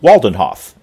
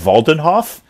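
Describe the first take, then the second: First: The name begins with an English W sound. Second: The name begins with a V sound. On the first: "is that not what I've been saying?" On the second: "are we going with the German V"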